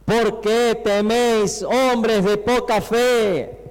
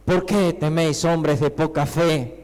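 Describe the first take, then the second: First: Slow, projected scripture quote; grand, drawn-out reproach; solemn rebuke. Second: Understated, conversational reproach; low-key chiding, easing slower at the end; seated, mild rebuke. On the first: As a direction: declaim it slowly, stretching each phrase. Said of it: "Y él les dijo". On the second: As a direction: say it as if just sitting up from sleep. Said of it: "Como que se sienta y". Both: Acted.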